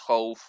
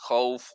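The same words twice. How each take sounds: Both takes have the same delivery.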